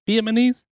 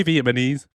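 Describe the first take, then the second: First: "Vietnamese" higher with a questioning rise; unsure, rising "Vietnamese"; testing the pronunciation. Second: Said in the usual way. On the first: Shown as a demonstration. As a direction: try out "Vietnamese" as a high question. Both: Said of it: "I can't say Vietnamese".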